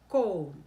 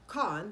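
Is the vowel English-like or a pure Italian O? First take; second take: Italian; English-like. First: The vowel is a pure, rounded Italian O. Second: The vowel sounds English-like, as the spelling suggests. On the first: The speaker calls it right. "We say it with our O shape here" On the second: The speaker calls it wrong. "we don't say con the way it looks"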